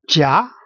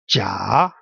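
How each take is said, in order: First: The pitch rises through the syllable. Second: The pitch dips down and then rises. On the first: "a little little streak going up" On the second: "going down and then going up"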